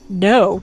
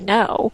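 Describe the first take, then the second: First: The word is said firmly, with strong force. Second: The word is said plainly, without force. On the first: It has more power and is meant seriously. "I really mean no" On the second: The animal may ignore it. "if I just say no"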